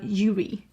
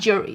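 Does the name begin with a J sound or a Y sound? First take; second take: Y sound; J sound. First: The name begins with a Y sound. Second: The name begins with a J sound. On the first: The speaker calls it right. "but like Yuri" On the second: The speaker calls it wrong. "Not Jury"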